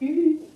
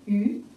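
First: The pitch stays high and level. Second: The pitch rises from middle to high. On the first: "一声鱼" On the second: "二声鱼"

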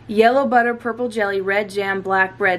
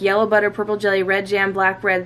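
First: It is said at a slow pace. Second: It is said at a quick pace.

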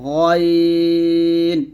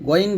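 First: The letter is said heavy and thick. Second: The letter is said light and thin. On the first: The speaker calls it right. "গয়ন এরকম মোটা করতে হবে" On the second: The speaker calls it wrong. "গয়ন বলবেন না"

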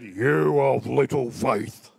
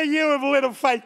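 First: The words sound stern and rebuking. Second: The words sound warm and encouraging. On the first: Jesus is scolding Peter for doubting. The speaker calls it wrong. "They say Jesus said" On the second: Jesus is cheering Peter on. The speaker calls it right. "I read it like this"

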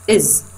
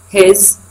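First: The h sound is dropped at the start. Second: The h sound is pronounced at the start.

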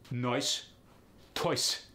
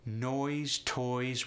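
First: It is said in a Russian accent. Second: It is said in a plain accent.

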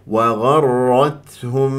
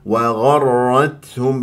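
Both takes have the same delivery.

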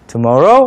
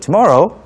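First: The voice rises on the word. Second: The voice falls on the word. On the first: It asks whether the other person wants to go. "tomorrow 라고 올리는 이유는 질문으로 바꾸는 거죠" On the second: It is a suggestion stated as a plan. "원래 말할 때는 Let's have coffee there tomorrow 인데"

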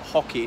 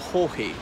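First: The name sounds exactly like the word hockey. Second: The name does not sound like the word hockey. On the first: This is how the family said it. "his family pronounced it Hockey, like the sport" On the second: This is the usual Irish pronunciation. "in Ireland, we usually pronounce it"

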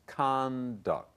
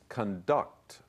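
First: The stress is on the first syllable. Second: The stress is on the second syllable. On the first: It is used as a noun. "but the noun is conduct. 变成名词的时候呢，把重音移到 C，也就是第一音节上面" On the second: It is used as a verb. "The verb is conduct, 动词的时候呢，重音放在第二音节"

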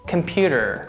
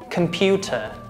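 First: It is said with American pronunciation. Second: It is said with British pronunciation. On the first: "American pronunciation" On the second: "British pronunciation"

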